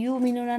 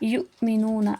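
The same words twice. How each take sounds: First: The word is said smoothly without a glottal catch. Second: The word has a sharp glottal catch before 'mi'. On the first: The speaker calls it wrong. "युमिनूना नहीं" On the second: The speaker calls it right. "Hamza को झटका देकर पढ़ेंगे"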